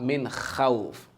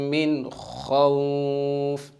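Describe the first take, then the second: First: The kh sound is light, with an empty mouth. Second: The kh sound is heavy, with a full mouth. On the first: The speaker calls it wrong. "not min khawf" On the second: The speaker calls it right. "pronounce it in full mouth"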